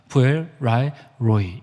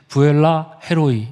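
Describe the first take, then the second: First: It is grouped as three parts: 부엘, 라헬, 로이. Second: It is grouped as two parts, 부엘라 and 헤로이.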